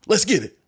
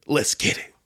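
First: Squeaky, high catchphrase; high-pitched hype. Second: Whispery catchphrase; whispered hype. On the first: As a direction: pitch it right up for the second take. Second take of inserted catchphrase. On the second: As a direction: say it breath-only, as a trial take. Trying out an inserted catchphrase. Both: Pretend.

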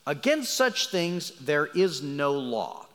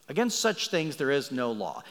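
First: Slow, weighty reading of "Against such things there is no law"; slow emphasis. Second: Said in the usual way. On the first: Shown as a demonstration. Preacher reads the verse to his listeners, slowly and weighty. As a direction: lean on "such" and draw the line out slowly.

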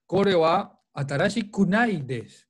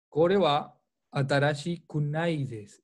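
First: Kunai punched a bit louder; kunai stressed. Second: Said in the usual way. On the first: Shown as a demonstration. Teacher showing students the kunai ending. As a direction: lean on kunai so students catch it. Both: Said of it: "Escuchen bien".

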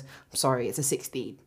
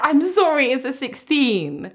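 First: Said in the usual way. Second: Much higher and louder, mocking the fitter's line. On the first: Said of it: "He goes". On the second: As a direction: squeal his words back at him in disbelief. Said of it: "What do you mean".

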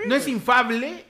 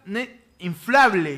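First: "infable" said without the l; "infable", dropping the l after the f; wrong take "infable". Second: "inflable" said slowly, with the l after the f; corrected take "inflable". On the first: Cohost unsure how to say the word, trying "infable". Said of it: "siento que lo estoy pronunciando mal". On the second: After the wrong try, cohost says the word correctly and slowly. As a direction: carefully say "inflable", the fl cluster clear. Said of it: "No, infla". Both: Shown as a demonstration.

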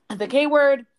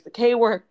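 First: "the K word" said louder and higher, hit hard; "the K word" stressed with a falling end; repeated for emphasis. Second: Said in the usual way. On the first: Real, not acted. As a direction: punch "the K word" again, louder.

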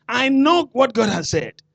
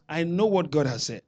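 First: Firm, raised "I know what God has said" with KNOW stressed; confident "I know what God has said", hitting KNOW; bold confession. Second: Half-hearted "I know what God has said"; limp claim. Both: Shown as a demonstration. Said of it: "That's not a confession".

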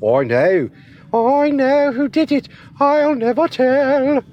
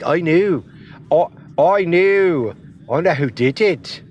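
First: Much higher, louder Scottish accent, slow; teasing high-pitched Scottish Nikki Cross. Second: A rough Scottish accent, words stretched slow; Scottish-accented Nikki Cross quote. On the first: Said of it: "Or maybe it's more like this". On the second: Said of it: "That's my, that's my Scottish". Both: Shown as a demonstration.

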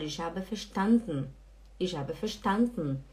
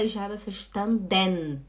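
First: "verstanden" as fer-SHTAN-dn, no final vowel; swallowed final E. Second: "verstanden" as fer-shtan-DEN, slow and drawn out; full final E. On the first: Teacher showing what we do say, swallowed ending. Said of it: "É como se engolisse aqui". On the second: Teacher showing what we don't say, over-pronounced ending. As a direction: sound a clear DEN at the end of "verstanden". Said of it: "A gente não fala". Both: Shown as a demonstration.

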